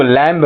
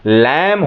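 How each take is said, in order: First: "लैम्ब" with the final b sounded, lamb-uh; wrong way. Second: "लैम" ending on m, b silent, slow; right way. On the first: Teacher showing the common mistake, b sounded in "लैम्ब". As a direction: say "लैम्ब" pronouncing the b at the end. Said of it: "लेकिन ये लैम्ब नहीं होता". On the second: Teacher giving the correct "लैम" with silent b. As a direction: say "लैम" slowly with no b at the end. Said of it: "लेकिन ये लैम्ब नहीं होता, लैम होता है". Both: Shown as a demonstration.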